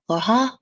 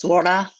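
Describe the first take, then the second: First: The name is said with a French accent. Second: The name is said with a Japanese accent. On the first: "like in French, it's Laura" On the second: "Japanese, it's Laura"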